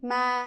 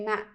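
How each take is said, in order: First: The vowel is held longer. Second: The vowel is cut a little shorter. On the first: "instead of saying ma" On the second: "I just make it a little bit shorter"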